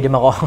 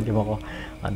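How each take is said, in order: First: Said in the usual way. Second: Chuckling through the words; soft laughing aside. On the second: Shown as a demonstration. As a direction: laugh it off softly.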